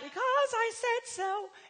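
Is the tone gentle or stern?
gentle. It is said in a gentle, pleasant tone.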